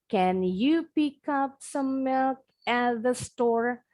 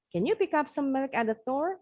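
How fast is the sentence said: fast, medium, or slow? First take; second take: slow; fast. First: The sentence is said slowly. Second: The sentence is said quickly. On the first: "kita pelan-pelan" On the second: "Makin lama, makin cepat"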